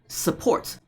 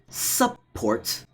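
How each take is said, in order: First: The first vowel is a reduced schwa. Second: The first vowel is a full U sound. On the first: The speaker calls it right. "U as in support" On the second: The speaker calls it wrong. "not support"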